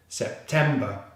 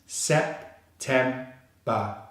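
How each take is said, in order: First: "September" as one joined word, stress on TEM; syllables joined. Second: "Sep, tem, ba" in three detached pieces; syllable by syllable. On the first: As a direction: say "September" whole, ending in a schwa. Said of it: "all three syllables together". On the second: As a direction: sound out "Sep, tem, ba" one syllable at a time. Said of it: "So we have all three syllables together". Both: Shown as a demonstration.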